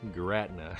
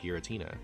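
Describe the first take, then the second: First: The name is said with three syllables. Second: The name is said with four syllables. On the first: The speaker calls it wrong. "we pronounced it Giratna" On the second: The speaker calls it right. "the Pokemon is actually called Giratina"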